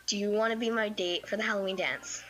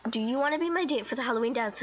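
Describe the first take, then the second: First: Matter-of-fact, evenly pitched question; straightforward. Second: Quick, more pressed question; insistent repeat. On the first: Girl asking her crush to the dance, straightforward. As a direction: ask it plainly, without hurrying. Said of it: "just straightforward asked". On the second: Girl repeating the invitation to her crush, hurried and insistent. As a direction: repeat it fast, pushing for an answer. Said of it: "I said it last time". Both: Retold or imitated.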